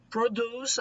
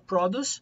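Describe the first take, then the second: First: It is said with the verb pronunciation. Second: It is said with the noun pronunciation. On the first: It means to make something. "o verbo produce" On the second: It means the thing that is made. "produce é produção"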